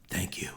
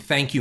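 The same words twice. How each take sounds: First: It is said in a gravelly Batman voice. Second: It is said in an ordinary voice.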